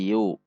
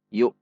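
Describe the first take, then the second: First: The syllable ends open with no stop. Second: The syllable ends with a sharp glottal stop. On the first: The speaker calls it wrong. "tidak yu ... tidak ada hamzahnya" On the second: The speaker calls it right. "seperti ada hentakan"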